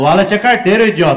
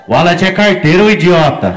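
First: Loud mocking call from the queue; shouted jeer. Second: Loud mocking call across a queue; shouted from the line. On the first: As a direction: jeer it loudly at him. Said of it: "Só brasileiro falou". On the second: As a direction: yell it out to embarrass the guy. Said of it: "alguém gritou da fila".

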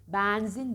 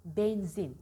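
First: Benzin said as "bänzin"; wrong open E. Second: Benzin with a narrow "e"; correct closed E. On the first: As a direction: exaggerate benzin with a wide "æ". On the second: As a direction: model benzin with a closed first vowel. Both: Shown as a demonstration. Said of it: "Benzin değil".

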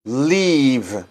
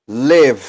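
First: "leave," with a long drawn ee. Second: "Live," with a short, quick i. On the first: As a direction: stretch the ee in "leave,". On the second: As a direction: clip the vowel in "Live,". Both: Shown as a demonstration.

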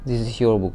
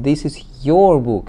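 First: Said in the usual way. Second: Louder, emphatic YOUR; "your" raised and hit hard for contrast; stress on YOUR. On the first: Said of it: "Not just this is your book". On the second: Shown as a demonstration. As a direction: punch the word "your". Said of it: "it's been put for emphasis".

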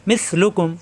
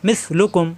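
Both takes have the same delivery.

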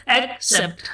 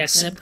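First: एक्सेप्ट split as "ek ... sept"; syllable by syllable. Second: Said in the usual way. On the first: Shown as a demonstration. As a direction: pause clearly between ek and sept in एक्सेप्ट. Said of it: "जोड़ जोड़ के बनाते हैं". (एक्सेप्ट को दो हिस्सों में, एक ... सेप्ट) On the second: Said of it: "एक्सेप्ट हम बोलते हैं".

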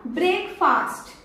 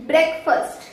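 First: "ब्रेकफास्ट" with a long "faast" ending; brek-FAAST for "ब्रेकफास्ट"; common mispronunciation. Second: "ब्रेकफास्ट" with short "fust" ending; BREK-fust for "ब्रेकफास्ट"; correct pronunciation. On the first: Trainer showing learners' habit, mispronunciation. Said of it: "ब्रेकफास्ट नहीं बोलते". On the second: Trainer correcting learners, correct pronunciation. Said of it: "इसे हम लोग". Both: Shown as a demonstration.

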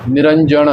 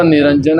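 First: ਨਿਰੰਜਨ ending in retroflex ṇ; mistaken retroflex ending. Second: ਨਿਰੰਜਨ ending in a plain dental n; final n sound. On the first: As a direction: curl the tongue on the last n of ਨਿਰੰਜਨ. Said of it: "ਉੱਥੇ ਨਾਣਾ ਨਹੀਂ ਲਾ ਦੇਣਾ". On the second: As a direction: finish ਨਿਰੰਜਨ with the tongue at the teeth. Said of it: "ਉਚਾਰਨ ਨੰਨੇ ਦੇ ਨਾਲ ਲੱਗਾ". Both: Shown as a demonstration.

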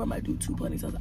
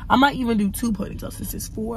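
First: Whispered aside to herself. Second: Said in the usual way. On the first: Real, not acted. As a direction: drop to a whisper. Repeats the idea to herself.

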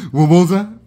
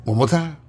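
First: Louder, pressing the word "more"; louder insistent repeat. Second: Said in the usual way. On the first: Real, not acted. Repeating himself to the ticket, louder and insistent. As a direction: say it again, louder and pushier.

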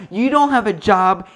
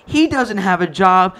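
First: Ranting with "don't" stressed. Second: Slower, loud, with "He" leading "He doesn't have a job"; ranting with "He" stressed. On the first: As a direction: punch "don't" in "You don't have a job" loudly. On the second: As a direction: land hard on he. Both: Retold or imitated. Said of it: "I'm like".

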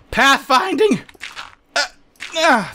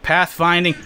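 First: High-pitched exasperated outburst; exasperated cry. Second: Said in the usual way. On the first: Real, not acted. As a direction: cry it out in frustration. Grumbling at the game's pathfinding.

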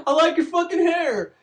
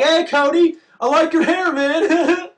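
First: High teasing voice breaking into laughter; laughing mockery. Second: High, loud teasing schoolkid voice; mocking classmates. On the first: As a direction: giggle through the taunt like a mean kid. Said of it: "eighth grade class is like". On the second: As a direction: jeer at him in a high sing-song kid voice. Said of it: "whole fucking eighth grade class is like".

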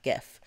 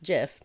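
First: "gif" with the g of "go"; hard-g "gif". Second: "gif" said as "jif"; soft-g "gif", like "jiffy". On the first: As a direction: start "gif" like the word "gift". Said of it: "says it's pronounced gif, not gif". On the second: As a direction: start "gif" with a j sound. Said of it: "that says it's pronounced gif". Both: Shown as a demonstration.

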